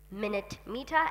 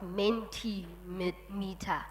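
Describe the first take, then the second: First: It starts like the word 'minute'. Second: It starts with the sound 'men'. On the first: The speaker calls it wrong. "I'm pronouncing it wrong" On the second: The speaker calls it right. "It's Mentimeter"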